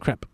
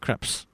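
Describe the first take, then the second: First: The word ends without any s sound. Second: The word ends with an audible s sound. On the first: The speaker calls it right. "It's crepe. the S is silent" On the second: The speaker calls it wrong. "You don't say crepes"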